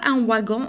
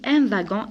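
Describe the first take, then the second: First: Wagon begins with a W sound. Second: Wagon begins with a V sound. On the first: The speaker calls it wrong. "on ne dit pas un wagon" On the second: The speaker calls it right. "on dit un wagon. Ici, la lettre W, je la prononce V"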